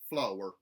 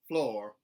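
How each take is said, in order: First: The R sound is hard and strong. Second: The R sound is lightly pronounced. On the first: "mountain, where the R sounds are retained, but they are hardened" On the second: "a contemporary Southern, where those R colorations are put back in"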